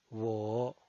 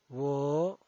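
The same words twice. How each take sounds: First: The pitch dips low, then rises. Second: The pitch rises from mid to high. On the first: "desciende primero ... para ascender luego" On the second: "El segundo tono es ascendiente"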